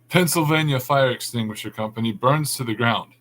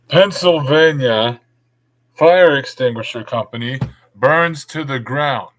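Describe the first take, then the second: First: It is said at normal volume. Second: It is said loudly.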